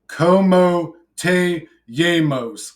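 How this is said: It is said with a heavy, broken English-sounding accent.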